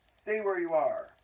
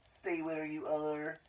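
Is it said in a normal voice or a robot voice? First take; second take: normal voice; robot voice. First: It is said in the reader's normal voice. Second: It is said in a put-on robot voice.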